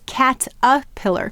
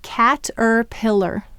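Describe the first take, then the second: First: The second syllable is reduced to a schwa. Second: The second syllable is fully pronounced with an r. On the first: This is how it is usually said. "we often say cat-a-pillar. This whole syllable becomes the schwa sound" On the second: It is exaggerated to help with spelling. "we're going to exaggerate cat-er-pillar"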